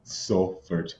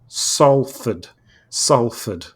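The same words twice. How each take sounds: First: "Salford" repeated low and soft in a non-local accent; learner's attempt. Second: "Salford" drawn out, Manchester style; slow pronunciation demo. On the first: Real, not acted. Practising the town name after the teacher, low tentative "Salford". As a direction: try "Salford" quietly, not quite native. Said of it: "I'm just trying to say Salford". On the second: Shown as a demonstration. Teaching a struggling co-host the name, slow careful "Salford". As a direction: say "Salford" slowly as a model to copy. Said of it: "Let's try again".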